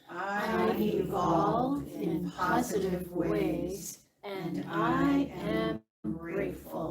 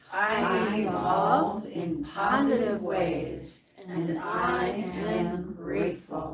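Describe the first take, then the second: First: It is said with calm, low energy. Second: It is said with somewhat more energy.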